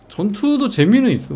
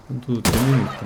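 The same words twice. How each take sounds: First: 전투도 jumps up high and loud; excited. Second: Said in the usual way. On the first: Real, not acted. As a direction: blurt 전투도 out with sudden enthusiasm.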